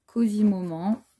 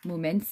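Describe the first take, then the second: First: Said in the usual way. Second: Says Moments with a light English accent, stress on the first syllable. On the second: Shown as a demonstration. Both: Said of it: "si on prend l'accent anglais".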